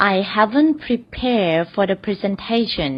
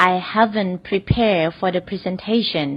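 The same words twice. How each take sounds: First: Very slow, careful teaching read; slow example sentence. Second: Very slow, careful repeat; slow example repeat. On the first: Teacher reads the first example slowly to the class. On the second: Teacher repeats the example slowly for students. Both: Shown as a demonstration. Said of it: "ตัวอย่างแรกค่ะ".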